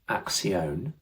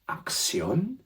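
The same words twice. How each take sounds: First: It is said with a stronger English accent. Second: It is said with a more Spanish accent. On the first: The speaker calls it wrong. "which is not quite right" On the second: The speaker calls it right. "a little bit better"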